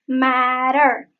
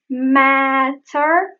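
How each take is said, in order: First: The T is a quick, soft flap. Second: The T is a crisp, released T sound. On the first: "becomes matter" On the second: "Matter becomes"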